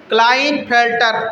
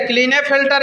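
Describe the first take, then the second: First: क्लाइनफेल्टर said with "kline" at the start; "kline" pronunciation. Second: क्लीनेफेल्टर said with "klee-ne" at the start; "klee-ne" pronunciation. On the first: Teacher giving the form many people use, क्लाइनफेल्टर said kline-fel-tar. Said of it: "कई लोग इसे क्लाइनफेल्टर भी बोलेंगे". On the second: Teacher giving students the first name form, क्लीनेफेल्टर said klee-ne-fel-tar. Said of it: "या फिर कई लोग इसे क्लाइनफेल्टर भी बोलेंगे". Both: Shown as a demonstration.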